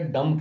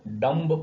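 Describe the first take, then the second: First: The word ends with the m sound, no b. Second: The word ends with an audible b sound. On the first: The speaker calls it right. "लेकिन हम इसे डम कहते हैं" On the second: The speaker calls it wrong. "डम्ब बोलना चाहिए हमने"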